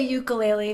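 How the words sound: It is said the mainland US way.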